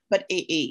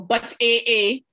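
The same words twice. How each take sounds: First: It is said flatly, without attitude. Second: It is said with strong, indignant attitude.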